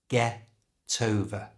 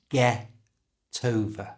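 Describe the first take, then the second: The two takes are said the same way.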